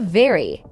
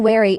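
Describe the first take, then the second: First: The word begins with a buzzing V sound. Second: The word begins with a rounded W sound. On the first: The speaker calls it right. "instead of very" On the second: The speaker calls it wrong. "Like saying wary instead of very"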